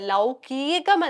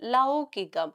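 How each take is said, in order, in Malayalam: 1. മധ്യത്തിലുള്ള 'i' സ്വരം നീട്ടുന്നു. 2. മധ്യത്തിലുള്ള 'i' സ്വരം ഹ്രസ്വമായി നിലനിർത്തുന്നു. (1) "ലൗകീകം എന്നല്ല നമ്മൾ ഉപയോഗിക്കേണ്ടത്" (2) "ഇകാരം നീട്ടാതെ നമ്മൾ ഹ്രസ്വമായിട്ട് ഉപയോഗിച്ചാൽ മതി"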